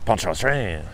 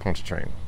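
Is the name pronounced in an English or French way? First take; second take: French; English. First: The name is pronounced in a French way. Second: The name is pronounced in an English way. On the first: The speaker calls it right. "it's probably" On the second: The speaker calls it wrong.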